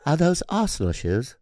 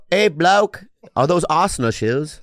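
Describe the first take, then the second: First: Put-on softer British accent; quieter, better British bloke. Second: Bad put-on British accent; mock Brit asking about shoes. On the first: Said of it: "That's good". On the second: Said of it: "That's a Greek accent?".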